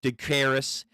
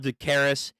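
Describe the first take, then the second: No difference in how they are said.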